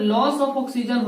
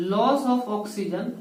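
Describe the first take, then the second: First: Said in the usual way. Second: Loss of oxygen stretched slowly, word by word; teacher repeating loss of oxygen slowly for notes; slow emphatic repeat. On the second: Shown as a demonstration.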